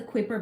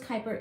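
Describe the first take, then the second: First: "Kuiper" read by its spelling, KWY-per; mispronounced Kuiper. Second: "Kuiper" as KY-per; corrected Kuiper pronunciation. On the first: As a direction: say "Kuiper" with a kw at the start. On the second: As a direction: say "Kuiper" with a plain k, rhyming with viper. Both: Real, not acted. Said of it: "It's pronounced Kuiper".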